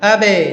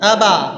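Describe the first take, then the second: First: The echo after the b sounds like i. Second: The echo after the b sounds like a. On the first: "জের হয়ে গেল" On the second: "জবর হয়ে গেল"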